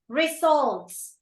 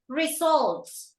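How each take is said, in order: No difference in how they are said.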